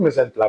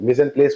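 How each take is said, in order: First: The last word ends in an open vowel. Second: The last word ends with an s sound. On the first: This is the French pronunciation. "अगर हम प्रोनाउंस करेंगे तो" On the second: This is how the term reads from its spelling. "अगर हम लिखे तो"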